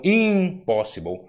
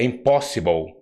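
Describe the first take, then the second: First: English "impossible" with IM punched and stretched; wrong stress on IM. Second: English "impossible" with weight on POS; correct stress on POS. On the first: Showing what English does not do, stress on IM. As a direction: hit the first syllable, IMpossible. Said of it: "e não impossible". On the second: Showing the English word correctly, stress on POS. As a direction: stress the second syllable, imPOSsible. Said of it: "no inglês". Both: Shown as a demonstration.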